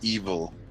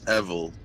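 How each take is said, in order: First: It starts with an 'ee' vowel, like 'evil'. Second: It starts with a vowel unlike 'evil'. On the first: The speaker calls it wrong. "It's not evil" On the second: The speaker calls it right. "If it sounds like evil, then you're saying it wrong"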